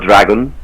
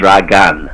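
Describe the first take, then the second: First: It sounds like the ordinary English word dragon. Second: It sounds different from the English word dragon. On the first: The speaker calls it wrong. "it's not dragon" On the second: The speaker calls it right. "it's a dragon"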